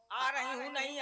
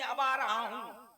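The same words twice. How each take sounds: First: Said in the usual way. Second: Slow, drawn-out stage entrance; measured male-role correction, words drawn out; announcing as the king. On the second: Shown as a demonstration. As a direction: stretch आ and रहा into a kingly announcement.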